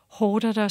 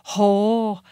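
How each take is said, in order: First: Every syllable of the word is pronounced. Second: Sounds are dropped and the word is shortened. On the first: "hvis jeg skal sige hårdere" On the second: "Så der er meget, som forsvinder i dansk"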